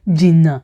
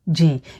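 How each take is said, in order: First: The word is said with both syllables, jìnnà. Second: The word is cut short to one syllable, jìn. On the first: "the full meaning of a word" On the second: "So we just say jìn"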